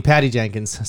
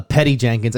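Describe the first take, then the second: First: "Patty" said with a short a as in cat; corrected first name. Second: "Petty" said with an eh in the first syllable; mispronounced first name. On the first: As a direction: say "Patty" to rhyme with batty. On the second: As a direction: say "Petty" to rhyme with jetty. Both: Real, not acted. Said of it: "I mean, Patty Jenkins".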